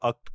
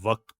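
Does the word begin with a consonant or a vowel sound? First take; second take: vowel; consonant. First: The word begins with a bare vowel sound. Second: The word begins with a clear w consonant. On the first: The speaker calls it wrong. "वक्त को अक्त क्यों पढ़ रहे हो?" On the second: The speaker calls it right. "दोनों को ऊ से नहीं बल्कि वा से पढ़ते हैं"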